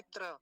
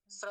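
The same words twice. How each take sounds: First: त्र as tra, opening on t; contrasting wrong cluster. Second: स्र as sra, no t; correct cluster. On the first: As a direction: tap a t into ra in त्र. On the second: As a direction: glide from s into ra in स्र. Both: Shown as a demonstration. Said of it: "ना कि त्र".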